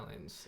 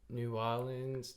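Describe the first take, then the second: First: The syllables are run together into two. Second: Every syllable of the name is said fully.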